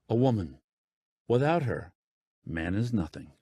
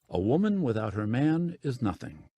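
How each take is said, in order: First: There are pauses after 'woman' and 'her'. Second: It is said as one unbroken phrase.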